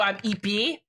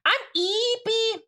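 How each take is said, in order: First: Said in the usual way. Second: High, drawn-out cutesy introduction; playful high voice. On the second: Pretend. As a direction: stretch it out in a high, put-on voice. Repeats greeting in playful high voice.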